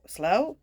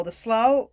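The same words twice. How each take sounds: First: "slow" said as a question, rising at the end; unsure pronunciation. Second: Said in the usual way. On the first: Real, not acted. Reader doubting her own pronunciation, "slow" with a questioning rise. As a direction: lift "slow?" as if checking the word. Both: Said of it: "I still can't pronounce that either".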